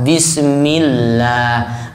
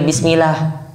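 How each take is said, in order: First: The l sound is held long and doubled. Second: The l sound is short and single. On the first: The speaker calls it right. "Harus ada tas tasdid" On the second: The speaker calls it wrong. "Nggak boleh"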